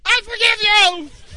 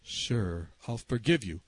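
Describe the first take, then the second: First: Slow, very high shout; yelling to be heard. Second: Low, soft and patient; discreet repeat. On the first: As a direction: holler it for someone hard of hearing. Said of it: "I literally had to say". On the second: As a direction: keep it down as you repeat yourself. Low reply before shouting. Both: Retold or imitated.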